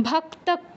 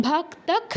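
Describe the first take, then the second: No difference in how they are said.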